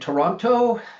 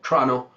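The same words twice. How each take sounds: First: The first vowel is clearly pronounced. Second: The first vowel is dropped. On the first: This is how outsiders say the name. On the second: This is how people born in the city say it.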